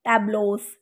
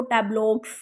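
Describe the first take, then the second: First: टैब्लोस with a long "o" and a plain "s" ending; silent x. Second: टैब्लॉक्स with a hard "ks" ending; x sound pronounced. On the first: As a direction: say टैब्लोस with no K sound before the S. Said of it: "हम इसे read करेंगे". (टैब्लोस, अंत में "क" के बिना सिर्फ़ "स") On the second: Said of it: "हमने इसे ऐसे नहीं पढ़ना". (टैब्लॉक्स के अंत में "क्स" की आवाज़) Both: Shown as a demonstration.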